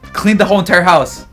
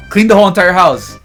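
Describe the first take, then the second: No difference in how they are said.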